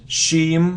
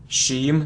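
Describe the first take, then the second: The two takes are said the same way.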